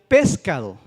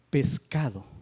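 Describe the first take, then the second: First: The stress is on the antepenultimate syllable. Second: The stress is on the penultimate syllable. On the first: The speaker calls it wrong. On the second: The speaker calls it right.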